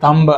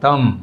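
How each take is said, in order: First: It ends with a b sound after the m. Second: It ends on an m with no b sound. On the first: The speaker calls it wrong. "అంతేగాని థంబ్ అనకూడదు" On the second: The speaker calls it right. "ఎం పైన stretch చేస్తాం"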